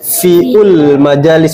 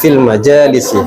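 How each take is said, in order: First: The first word has an added u vowel. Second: The first word has no added u vowel. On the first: The speaker calls it wrong. "bukan fiul majalis, bukan begitu" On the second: The speaker calls it right. "Jadi fil majalis"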